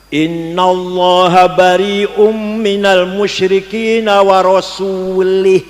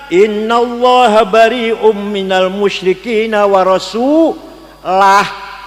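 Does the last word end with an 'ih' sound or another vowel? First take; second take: ih; another vowel. First: The last word ends with an 'ih' sound. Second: The last word ends without an 'ih' sound. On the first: God disowns the idolaters and also His messenger. The speaker calls it wrong. "Salah. ... Kalau Rasulih" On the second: God and His messenger both disown the idolaters. The speaker calls it right. "Yang benar"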